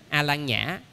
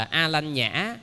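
First: "A Lan Nhã" with plain "Lan" in the middle; Sino-Vietnamese variant. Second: Slow "A Lanh Nhã" with "Lanh" in the middle; Sino-Vietnamese transliteration. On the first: Monk gives the later variant, "Lan" replacing "Lanh". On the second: Monk recalls the familiar term, slow Sino-Vietnamese syllables. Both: Shown as a demonstration. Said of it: "chúng ta nghe là".

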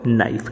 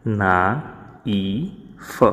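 First: Said in the usual way. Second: "ના ઈ ફ" broken into separate sounds; teacher sounding out "ના ઈ ફ" piece by piece with a silent K; sounded out. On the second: Shown as a demonstration. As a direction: say "ના", "ઈ", "ફ" one by one, pausing between. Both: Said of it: "આનો ઉચ્ચાર થશે".

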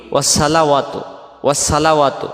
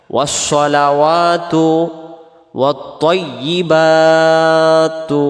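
First: ওয়াসসালাওয়াতু with a light স, said quickly; wrong pronunciation. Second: Both words drawn out in a slow melodic chant; slow chanted recitation. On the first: Teacher showing wrong ওয়াসসালাওয়াতু, quick and light. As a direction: say ওয়াসসালাওয়াতু the careless way, with a thin s. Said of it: "যদি পড়ি, এই সদটা সিন অক্ষর হয়ে যাবে". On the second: Teacher chanting the phrase slowly. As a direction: chant slowly, holding the heavy letters. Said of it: "এই শব্দটা লক্ষ্য করেন". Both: Shown as a demonstration.

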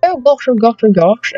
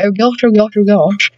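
First: Higher posh aristocratic exclamation; hammed-up posh aristocrat; posh accent. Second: Posh aristocratic oh gosh; posh accent. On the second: Pretend. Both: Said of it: "I sound like some posh aristocratic person".

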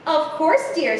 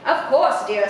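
First: A brighter, lightly higher "of course, dear" with a rising lift; a distracted mother answering sweetly without looking; mother's voice. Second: A plainer, level "of course, dear" that falls at the end; an easygoing dad answering without fuss; dad's voice. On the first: Story mother answering her daughter, light and lifting. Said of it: "said her mother". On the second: Story father agreeing with his daughter, level and falling. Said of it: "said Dad". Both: A narrator's reading.

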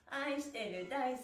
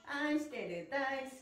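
No difference in how they are said.

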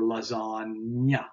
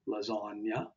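First: Lasagna slowly, with the last part drawn out as NYA; nya sound shown. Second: Said in the usual way. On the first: Shown as a demonstration. Teacher showing learners the nya sound, lasagna said slowly. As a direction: stretch lasagna to show the nya. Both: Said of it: "then we have the nya sound".

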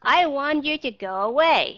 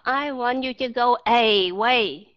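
First: Firm demand, schwa kept in away; emphatic go away. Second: Away with a full, stressed first vowel instead of schwa; overcareful away, first vowel fully sounded; wrong full vowel. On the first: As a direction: push the whole line, away still starting with uh. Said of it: "Nếu em muốn nhấn mạnh". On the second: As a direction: say away as ay-way, no weak uh. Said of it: "Chứ bạn vẫn không thể đọc là". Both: Shown as a demonstration.

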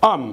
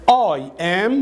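First: "am" as one quick syllable, short for I am; contracted, run-together "am"; fast reduced form. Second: I AM as two full separate words; careful, uncontracted "I am"; full form. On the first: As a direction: squeeze it into a single "am". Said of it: "بتتنطق بسرعة". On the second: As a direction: sound out "I am" slowly and fully. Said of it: "بتتنطق بسرعة am". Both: Shown as a demonstration.

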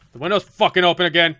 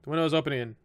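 First: Loud, sweary burst of disbelief; exasperated outburst. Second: Said in the usual way. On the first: Real, not acted. Gamer reacting to the window open again, exasperated outburst. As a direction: blurt it out loudly, exasperated.

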